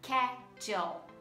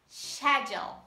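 First: The word begins with an sk sound. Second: The word begins with an sh sound. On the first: "Pronunciamos no inglês americano como schedule" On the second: "Já no britânico"

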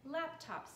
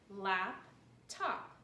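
First: There is no pause between 'lap' and 'top'. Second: There is a pause between 'lap' and 'top'.

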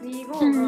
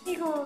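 First: It is said with an Osaka accent. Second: It is said with a standard Tokyo accent.

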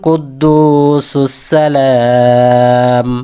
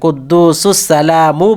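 First: The last word stops sharply on the m sound. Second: The last word ends with a final u vowel. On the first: The speaker calls it right. "যেহেতু আপনি এখানে ওয়াকফ করবেন" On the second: The speaker calls it wrong. "কুদ্দুসুস সালামু বলবেন না"

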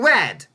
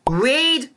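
First: The vowel is a short 'e' sound. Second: The vowel is a long 'ee' sound. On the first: It is the past tense. "The second word should be spelt as R-E-D" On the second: It is the present tense or infinitive. "one of them is the present tense or infinitive"

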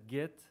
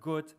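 First: The vowel is an 'ee' sound. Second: The vowel is an 'oo' sound. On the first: This is the Yiddish theater dialect form. "they said git" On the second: This is the everyday form, not the theater dialect. "instead of gut"

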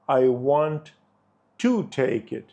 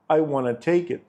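First: Want to is said as two full words. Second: Want to is merged into wanna.

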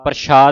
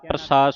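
First: The middle consonant is a sh sound. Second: The middle consonant is an s sound. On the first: The speaker calls it wrong. "ਪ੍ਰਸ਼ਾਦ ਨਹੀਂ ਕਹਿਣਾ" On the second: The speaker calls it right. "ਪ੍ਰਸਾਦ ਸੱਸਾ ਬੋਲਣਾ"

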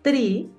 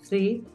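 First: It begins with a hard t sound. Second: It begins with a soft, airy th sound. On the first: It sounds like the word for a tree. The speaker calls it wrong. "me estás diciendo uno, dos, árbol" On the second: It means the number three. The speaker calls it right. "Tienes que sentir ese vientico suave"

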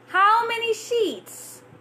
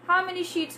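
First: Each word is over-articulated with a wide-open mouth. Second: The words are said casually with little mouth movement. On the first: "open your mouth, stretch your muscles" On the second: "So just like that, very simple, not even opening too much"

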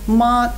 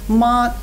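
First: The pitch stays high and level. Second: The same.

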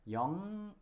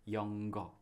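First: The ng flows into the vowel with no g. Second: The ng is followed by a hard g. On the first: The speaker calls it right. "영어 is the right one" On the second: The speaker calls it wrong. "I heard lots of Korean learners pronounce it like 영어"

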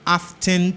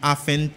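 First: The t sound in the middle is pronounced. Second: The t sound in the middle is silent. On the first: This is how it is said in England. "ou ka di often tout si ou c'est anglais, soit vivant en Angleterre" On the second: This is how Americans say it. "mais américain dit often, t a pas prononcé"

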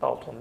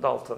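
First: The name is said with a Turkish pronunciation. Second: The name is said with an English pronunciation. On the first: "alışkanlık olarak bazen Dalton dediğimiz de oluyor" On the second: "İngilizce telaffuzu Dalton"

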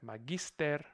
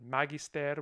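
First: The stress is on the second syllable. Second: The stress is on the first syllable. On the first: The speaker calls it right. "S does count as part of the coda. So it will attract stress" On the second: The speaker calls it wrong. "rather than"

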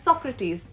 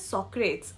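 First: The final e is sounded, giving three syllables. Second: The final e is silent, giving two syllables. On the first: The speaker calls it right. "his name is pronounced as Socrates. That's his name" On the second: The speaker calls it wrong. "is pronounced as Socrates, which is wrong"

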